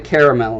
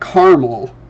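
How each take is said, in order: First: The middle vowel is pronounced, giving three syllables. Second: The middle vowel is dropped, giving two syllables. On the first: It follows the spelling of the word. "there is absolutely an e in there that deserves to be said" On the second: This is how people in the region say it. "So we pronounce it caramel, and I grew up saying it that way"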